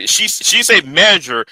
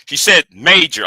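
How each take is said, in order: First: She said major, slow and deliberate with the weight on said; slow correction. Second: Said in the usual way. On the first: Shown as a demonstration. Correcting viewers, slow and deliberate. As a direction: spell out major slowly. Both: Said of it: "she didn't say ma-, she said major".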